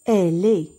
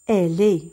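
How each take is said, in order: The two takes are said the same way.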